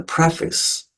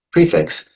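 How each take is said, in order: First: "preface" said as PREFF-iks; short e in the first syllable of "preface"; short-e pronunciation. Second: "prefix" said as PREE-fiks; long ee in "prefix", higher pitch; long-e pronunciation. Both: Shown as a demonstration. Gives two pronunciations of prefix.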